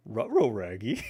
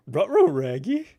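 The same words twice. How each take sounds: First: Lightly voiced cartoon dog; rounded dog-talk with R sounds up front; Scooby-Doo. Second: High, loud cartoon dog yelp; exaggerated dog-talk, pitched up and pushed hard; Scooby-Doo. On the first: Gamer tries a cartoon dog impression, a low-key first go. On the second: Gamer repeats a dog impression, louder, higher and hammed up. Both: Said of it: "That was a terrible Scooby-Doo".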